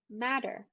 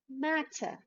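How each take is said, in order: First: It is said in an American accent. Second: It is said in a British accent. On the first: "then in American English" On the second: "in British English first"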